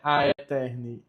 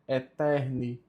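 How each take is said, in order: First: An a sound is heard before eterni. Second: The word starts directly with an e sound. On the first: The speaker calls it wrong. "Não é a Eterni" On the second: The speaker calls it right. "A pronúncia correta é Eterni"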